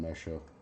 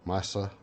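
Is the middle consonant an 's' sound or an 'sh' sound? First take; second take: sh; s. First: The middle consonant is an 'sh' sound. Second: The middle consonant is an 's' sound. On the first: This is the speaker's own casual pronunciation. The speaker calls it wrong. "I call them mesha" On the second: This is the technically correct pronunciation. The speaker calls it right. "it's technically uh, M E H S A, so Mesa"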